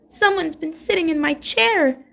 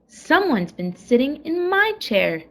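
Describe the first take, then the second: First: It is said in a wee little voice. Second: It is said in a middle-sized voice.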